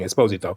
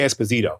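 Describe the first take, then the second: First: The name is said with an Italian pronunciation. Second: The name is said with an American pronunciation. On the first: This is the name's true form. "if I judged that they wouldn't understand me saying Esposito" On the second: This form is used so listeners understand. "I would say Esposito"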